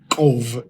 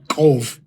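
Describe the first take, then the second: First: The syllable ends with a clear V sound. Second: The syllable ends with a clear V sound.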